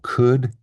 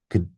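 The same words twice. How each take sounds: First: The vowel is said full and clear. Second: The vowel is reduced to a weak schwa.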